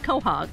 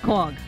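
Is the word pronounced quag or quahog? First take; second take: quahog; quag. First: The word is said as quahog. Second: The word is said as quag. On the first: This is how people on the Cape say it. The speaker calls it wrong. "I grew up on the Cape, and we said quahog. Yep. I guess we're just wrong" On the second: This is the local way to say it. The speaker calls it right. "So now I know how to say it and pronounce it correctly"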